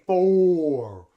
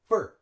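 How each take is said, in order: First: The word has a full, clear vowel. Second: The word has a weak schwa vowel. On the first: The speaker calls it wrong. "we don't say for. We don't use the full vowel sound" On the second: The speaker calls it right. "We use schwa"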